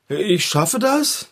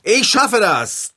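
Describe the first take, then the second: First: Doubtful, slow questioning mumble; unsure. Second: Louder, slow, determined declaration; with conviction. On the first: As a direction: say it as if you don't believe it. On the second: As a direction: say it like you truly believe it. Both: Shown as a demonstration. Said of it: "Mit noch mehr Überzeugung".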